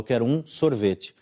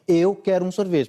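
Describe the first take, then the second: First: The stress is on sorvete. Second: The stress is on eu.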